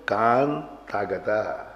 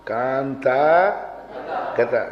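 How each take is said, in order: First: Very slow कांता गता, the ता pushed onto गता; correct joined reading. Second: कांता गता with ता kept on कांता; common reading. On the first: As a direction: drag कांता गता out, ता moved across. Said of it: "ता को उधर ले जाओ". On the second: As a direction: say कांता गता as learnt by rote. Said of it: "उच्चारण तो यही है ना". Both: Shown as a demonstration.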